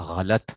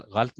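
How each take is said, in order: First: "غلط" in two syllables, gha-lat; correct pronunciation. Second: "غلط" as one syllable, ghalt; wrong pronunciation. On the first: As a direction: keep the second a in "غلط". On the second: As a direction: drop the second vowel in "غلط". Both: Shown as a demonstration. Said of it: "غلط نہیں ہوتا".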